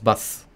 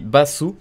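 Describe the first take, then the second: First: The final u vowel is dropped. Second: The final u vowel is fully voiced. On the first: "ça se prononce basse" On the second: "Ça s'écrit basu"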